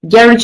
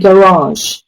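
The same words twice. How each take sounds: First: It is said with a British pronunciation. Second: It is said with an American pronunciation. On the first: "Garage is a British way of pronouncing" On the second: "An American person would say garage"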